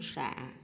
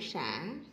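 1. Âm tiết có giọng thấp, ngắn và nặng. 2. Âm tiết có giọng xuống rồi lên. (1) "nặng" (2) "hội"

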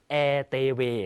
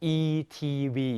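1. ตัวอักษรเหล่านี้อ่านด้วยชื่อตัวอักษรภาษาเวียดนาม 2. ตัวอักษรเหล่านี้อ่านด้วยชื่อตัวอักษรภาษาอังกฤษ

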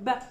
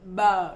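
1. Nguyên âm sau b được giữ ngắn. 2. Nguyên âm sau b được kéo dài. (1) "Chúng ta không đọc bờ dài ra như tiếng Việt" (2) "tiếng Việt đọc là âm bờ"

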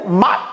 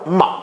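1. 入声是高调。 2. 入声是低调。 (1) "阴入" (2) "阳入"

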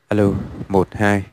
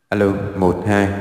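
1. Giọng khô, không có tiếng vang. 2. Giọng có thêm hiệu ứng vang. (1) "đây là cái chế độ không có vang" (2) "nó có hai chế độ vang khác nhau"

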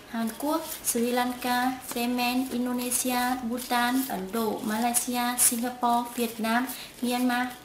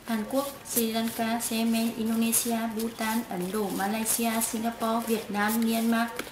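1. Tên được đọc chậm, to và rõ. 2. Tên được đọc nhanh, nối tiếp nhau. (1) "đọc to và rõ ràng" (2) "chúng ta có thể trả nhanh hơn"

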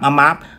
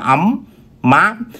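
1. Âm M nối mượt và tự nhiên sang từ tiếp theo. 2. Âm M bị ép sang từ tiếp theo thành mát. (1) "chúng ta đọc nhanh là ấm áp" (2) "mình cố tình tạo ra nối âm"

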